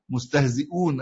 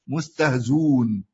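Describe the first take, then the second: First: A glottal stop is heard before the final syllable. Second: No glottal stop; the vowel before is rounded.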